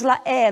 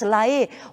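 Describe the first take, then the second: First: The E vowel is open. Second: The E vowel is closed. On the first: The speaker calls it wrong. "Nós não temos la E" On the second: The speaker calls it right. "somente temos la E, ou seja, é sempre a pronúncia fechada"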